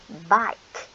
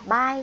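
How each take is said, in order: First: The word ends with a clear k sound. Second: The word ends without a final k sound. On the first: The speaker calls it right. "mà mình phải đọc là bike" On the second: The speaker calls it wrong. "Con đừng đọc là bay nha"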